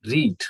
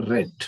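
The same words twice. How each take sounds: First: ರೀಡ್ said with a long ee, like reed; teacher says ರೀಡ್ as reed for the present tense; present tense read. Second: ರೆಡ್ said with a short e, like red; past tense read. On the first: Teacher showing students the present tense, ರೀಡ್ said as reed. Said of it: "ಮೊದಲನೇದು ರೀಡ್ ಅಂತ ಓದಿದ್ರೆ". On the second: Teacher showing students the past tense, ರೆಡ್ said as red. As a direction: say ರೆಡ್ to rhyme with bed. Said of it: "ಇದನ್ನ ರೆಡ್ ಅಂತ ಓದ್ಬೇಕು". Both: Shown as a demonstration.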